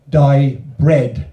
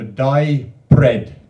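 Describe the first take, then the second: First: "dye bread" said loud, "bread" falling; Welsh trade name. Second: "dye bread" drawn out slowly, "bread" falling; slow Welsh trade name. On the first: Poet showing the audience how Welsh names a trade, loud and clear. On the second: Poet repeating the Welsh trade name slowly for the audience. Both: Shown as a demonstration. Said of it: "is how they say it in Welsh".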